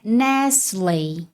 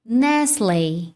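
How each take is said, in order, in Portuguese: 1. É dita em inglês, com o T mudo. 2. É dita em inglês, com o T mudo.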